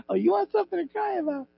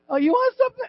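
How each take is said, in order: First: Lightly voiced scolding mom, quick, fading softer; a quick, hushed mock threat with a laugh behind it; mom's threat. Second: High mocking mom voice, stress on want; a mom's sharp threat, pitched up. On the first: Preacher repeating his mom's line: quick, softer mock scolding. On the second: A preacher imitating his mom: high mocking threat. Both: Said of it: "she'd go".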